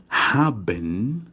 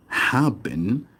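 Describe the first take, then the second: No difference in how they are said.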